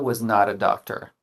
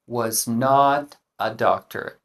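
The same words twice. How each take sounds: First: The words 'not a' run together like 'nada'. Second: The words 'not a' are said separately.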